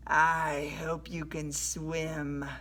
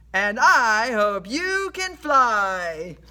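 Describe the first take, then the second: First: Slow, softer threat; menacing sailor. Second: Slow, loud, drawn-out comeback; horse's retort. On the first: Sailor holds Rush by the collar, slow menace. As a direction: draw the threat out slowly and quietly. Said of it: "yelled Fish Breath". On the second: Horse Liberty replies to the sailor, slow loud retort. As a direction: answer the threat slowly and loudly. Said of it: "Liberty replied to him". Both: A narrator's reading.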